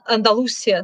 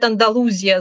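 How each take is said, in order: First: The word is said with an 's' sound. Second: The word is said with a 'z' sound. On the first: "говорят «Андалусия» с «с»" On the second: "говорят «Андалузия» с буквой, со звуком «з»"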